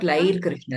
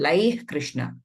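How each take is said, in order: First: The first word ends with an r sound. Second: The first word ends with a breathy h sound. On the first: The speaker calls it wrong. "Not Lair Krishna" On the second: The speaker calls it right.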